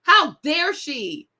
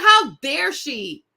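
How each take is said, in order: First: How dare she again, slow and weighted on How; slow indignant How dare she with How stressed; mock outrage. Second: Slow, deliberate how dare she, punching How; How dare she spelled out slowly and pointedly; mock outrage. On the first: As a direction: repeat How dare she, stretching each word. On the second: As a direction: drag out How dare she in indignant disbelief. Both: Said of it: "I'm like".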